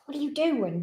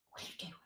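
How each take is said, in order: First: Said in the usual way. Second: Whispering softly to the dog; a hushed, secret question. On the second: Real, not acted. Owner whispering playfully to her dog, hushed.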